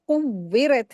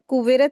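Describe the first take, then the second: First: The w sound is held and doubled. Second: The w sound is short and single. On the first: The speaker calls it right. "कुव्विरत है, यानी वाव के ऊपर शद्द है, वाव को दो मर्तबा पढ़ेंगे" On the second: The speaker calls it wrong. "अक्सर लोग यहीं पे गलती करते हैं कि कुवेरत कुवेरत पढ़ते हैं। कुवेरत नहीं है"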